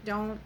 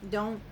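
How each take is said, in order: Both takes have the same delivery.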